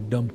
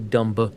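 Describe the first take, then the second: First: The word ends on the M sound. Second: The word ends with a pronounced B sound. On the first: The speaker calls it right. "Say dumb" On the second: The speaker calls it wrong. "you don't say dumba"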